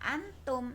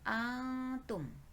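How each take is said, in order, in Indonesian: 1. Bunyi n diucapkan dengan jelas. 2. Bunyi n tersembunyi dalam dengung sengau. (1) "Tidak dibaca antum, nunnya jelas" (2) "tetapi antum"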